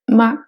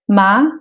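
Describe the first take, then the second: First: The syllable is said short and light, unstressed. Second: The syllable is said with a rising pitch. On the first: "c'est le ton neutre" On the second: "c'est le ton montant"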